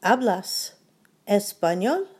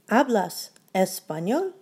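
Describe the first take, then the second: No difference in how they are said.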